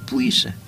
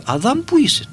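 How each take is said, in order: First: Whispered "Πού είσαι; ", soft and plain; simple whispered call. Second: Calling out high, simple and direct; God calling Adam. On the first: Shown as a demonstration. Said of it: "Πολύ απλό". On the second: Retold or imitated. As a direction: call the name up high, like a voice from above.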